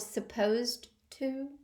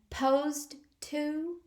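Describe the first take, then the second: First: The first syllable of supposed is pronounced. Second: The first syllable of supposed is dropped. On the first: The speaker calls it right. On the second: The speaker calls it wrong.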